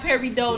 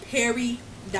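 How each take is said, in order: First: The word ends in an open oh, no t. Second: The word ends with a clear t sound. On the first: The speaker calls it wrong. "It's not Perry Doe, because we ain't French" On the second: The speaker calls it right. "it's spelled P E R I D O T. Perry dot"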